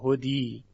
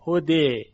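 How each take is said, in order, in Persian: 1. واکه پایانی i کامل است. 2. واکه پایانی به سمت e میل دارد. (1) "تبدیل به یاش نمیکنیم که بگیم هدی، هدی غلطه" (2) "وقتی بخوایم این رو اماله بکنیم یعنی الف رو میل بدیم به سوی یا"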